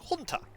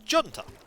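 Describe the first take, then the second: First: It is said the American and Spanish way. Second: It is said the British English way. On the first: "American English and Spanish, it's junta" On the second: "In British English, it's junta"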